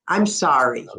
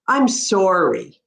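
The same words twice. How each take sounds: First: It is said in an American accent. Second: It is said in a Canadian accent.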